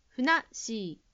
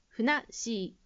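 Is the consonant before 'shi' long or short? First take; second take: long; long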